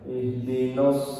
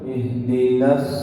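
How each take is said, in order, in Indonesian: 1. Suku kata n terdengar berat dan gelap, seperti 'nos'. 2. Suku kata n terdengar ringan dan jernih, seperti 'nas'. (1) "nunnya sering ikut tebal" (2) "Jadi harus na dulu"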